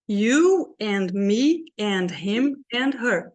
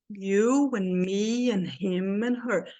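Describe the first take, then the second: First: Every word gets equal time, slow and even. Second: Only strong words are timed; small words squeezed. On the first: The speaker calls it wrong. "Se eu fosse falar igual eu falo português... Eu iria falar assim" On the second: The speaker calls it right. "Essa frase eu vou falar no mesmo ritmo"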